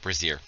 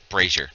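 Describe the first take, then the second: First: It is said sounding like brassiere. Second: It is said unlike the word brassiere. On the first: It names a piece of women's underwear. The speaker calls it wrong. "not brazier. Brazier is what women wear on their tits" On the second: It names a pan for burning coals. The speaker calls it right. "And it's brazier"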